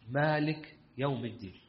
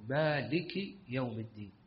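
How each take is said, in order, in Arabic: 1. تُحذف حركات الإعراب في آخر الكلمة. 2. تُنطق حركات الإعراب في آخر الكلمة. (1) "يعني ما يقول" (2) "يقول مالك يوم الدين، يعربها"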